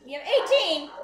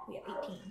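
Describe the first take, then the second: First: Higher, louder indignant cry; shocked, loud outcry at the number; outraged surprise. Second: Low, soft disbelieving mutter; quietly checking the count. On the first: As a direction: exclaim the count in disbelief. Outraged at wood count. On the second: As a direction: say it under your breath. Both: Real, not acted.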